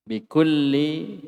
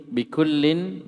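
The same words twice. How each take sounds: First: "bikulli" slow, ending on a bare i; "bikulli" drawn out, no final n; without tanwin. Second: "bikullin" slow, closed on an n; "bikullin" drawn out with a sounded final n; with tanwin. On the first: Teacher reading the text to students, "bikulli" without tanwin. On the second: Teacher correcting the reading for students, "bikullin" with tanwin. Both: Shown as a demonstration. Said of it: "Itu ditanwin juga mestinya".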